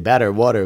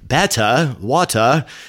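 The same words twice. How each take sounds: First: The words are said with an American accent. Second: The words are said with a British accent. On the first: "I kind of try to blend in" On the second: "I kind of sounded like British a little bit"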